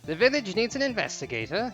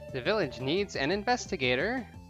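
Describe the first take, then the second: First: It is read in a put-on British accent. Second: It is read in the speaker's ordinary accent. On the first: "Bad British accent time" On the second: "that was a bad line read"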